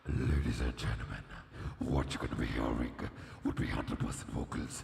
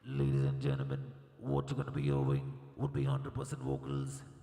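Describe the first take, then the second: First: It is spoken as a dramatic movie robot character. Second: It is spoken in a plain robot voice. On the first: "let me call the Optimus Prime from the Transformers movie" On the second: "I can definitely sound like one"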